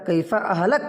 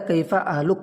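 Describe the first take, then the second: First: The final word ends with an 'a' vowel. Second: The final word ends with a 'u' vowel. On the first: It asks how the speaker should die. The speaker calls it wrong. "सिर्फ ज़बर पढ़ देने की वजह से माना कितना गलत हो गया" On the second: It asks how the listener's family is doing. The speaker calls it right. "तबीयत मालूम करने के लिए कहना चाहिए था"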